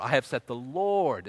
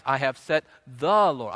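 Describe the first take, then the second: First: "Lord" drawn out at the end, slow phrase; stress on LORD. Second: "the" stretched and louder, said "thuh"; stress on THE. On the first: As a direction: lean on the final "Lord". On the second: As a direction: lean slowly and heavily on "the". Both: Shown as a demonstration. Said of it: "and you emphasize".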